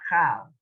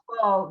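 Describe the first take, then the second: First: The word is said with an a vowel. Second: The word is said with an o vowel. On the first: The speaker calls it wrong. "not chal" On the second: The speaker calls it right.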